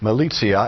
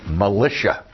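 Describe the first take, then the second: First: The word is given its Latin pronunciation. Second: The word is given its English pronunciation. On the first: "The word militia" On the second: "comes right over into the English language with a different pronunciation"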